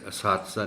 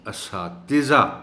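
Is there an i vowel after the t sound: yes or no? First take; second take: no; yes. First: No i vowel follows the t sound. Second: An i vowel follows the t sound. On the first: The speaker calls it wrong. "इसे असातिज़ा नहीं पढ़ना" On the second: The speaker calls it right. "ते के नीचे ज़ेर"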